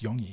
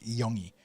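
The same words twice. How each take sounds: First: The final 'i' sound is passed over quickly. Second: The final 'i' sound is drawn out and emphasized. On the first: "you roll over that I fast" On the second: "you really emphasize the I"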